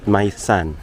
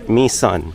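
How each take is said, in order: First: The first word sounds like 'my'. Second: The first word sounds like 'me'. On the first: The speaker calls it wrong. "not my son" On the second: The speaker calls it right. "that is me son"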